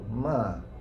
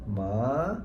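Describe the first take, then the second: First: The pitch drops sharply from high to low. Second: The pitch dips low, then rises again. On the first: "It's from high to low" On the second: "from the, the high to the low and then go back to high, so it's like ma"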